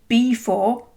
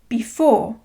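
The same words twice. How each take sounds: First: The stress is on the first syllable. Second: The stress is on the second syllable. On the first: The speaker calls it wrong. "We don't say before" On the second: The speaker calls it right. "we say before"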